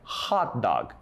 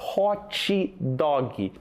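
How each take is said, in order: First: The sounds of the words are kept short. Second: The sounds of the words are stretched out. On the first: The speaker calls it right. "Mas a pronúncia correta é hot dog" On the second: The speaker calls it wrong. "Outra palavra que a gente prolonga muito o som dela"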